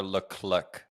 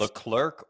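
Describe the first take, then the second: First: Leclerc without the R, "luh-klick"; second option, Leclerc clipped to an R-less ending; R dropped. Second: Leclerc with a sounded R, "luh-klurk"; first option, Leclerc ending in "lurk"; R pronounced. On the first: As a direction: say Leclerc slowly with a short vowel straight into k. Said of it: "British pronunciation does not, um, does not pronounce". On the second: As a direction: say Leclerc American-style, slowly, with the R. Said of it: "they actually pronounce the R". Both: Shown as a demonstration.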